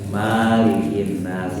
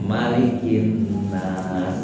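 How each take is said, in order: First: The first vowel is held long. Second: The first vowel is kept short. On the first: The speaker calls it wrong. "Yang salah justru dibaca malikin nas, itu salah" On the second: The speaker calls it right. "Yang benar adalah pendek"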